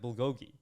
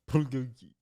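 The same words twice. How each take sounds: First: It is pronounced the American way. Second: It is pronounced the Korean way.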